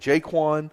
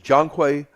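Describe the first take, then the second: First: The name is said as Jaquan. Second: The name is said as Jonquay. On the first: The speaker calls it wrong. "I have been saying Jaquan" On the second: The speaker calls it right. "his name is Jonquay Johnson"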